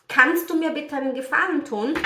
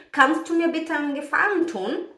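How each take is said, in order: Both takes have the same delivery.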